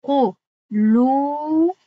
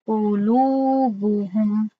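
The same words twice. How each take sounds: First: قلوبهم recited slowly, the و held for two counts; correct two-count قلوبهم. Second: قلوبهم recited slowly, only the و after لو stretched two counts; correct قلوبهم. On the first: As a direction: stretch the و of قلوبهم for two beats. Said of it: "برای همین این گونه گفتم". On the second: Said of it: "در اینجا من نگفتم". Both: Shown as a demonstration.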